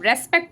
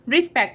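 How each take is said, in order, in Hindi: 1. पहला स्वर 'e' की आवाज़ है। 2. पहला स्वर 'i' की आवाज़ है। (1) "मैं रेस्पेक्ट नहीं बोल रही हूँ" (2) "रिस्पेक्ट बोल रही हूँ"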